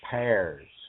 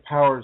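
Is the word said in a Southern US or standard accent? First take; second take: Southern; standard. First: It is said in a Southern US accent. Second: It is said in a standard, non-Southern accent.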